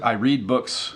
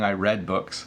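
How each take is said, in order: First: The verb is said in its present-tense form. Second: The verb is said in its past-tense form. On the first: The reading happens now. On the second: The reading happened in the past. "When I was young"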